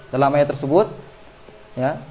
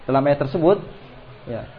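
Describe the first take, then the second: No difference in how they are said.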